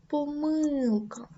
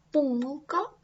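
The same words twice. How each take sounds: First: «помилка» з наголосом на «ми» — поМИлка, повільно; скажи «помилка» як поМИлка; second stress variant. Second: «помилка» з наголосом на «по» — ПОмилка; скажи «помилка» як ПОмилка; first stress variant. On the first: (подвійний наголос: другий варіант) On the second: (подвійний наголос: перший варіант) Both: Shown as a demonstration. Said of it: "Подвійний наголос".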